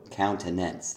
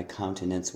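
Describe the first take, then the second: First: Countenance with an extra stress on the final NANCE; double stress. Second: Said in the usual way. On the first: Shown as a demonstration. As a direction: hit both COUN and NANCE in "countenance". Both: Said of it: "you've put two stresses on one word".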